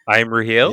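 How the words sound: The voice rises at the end like a question.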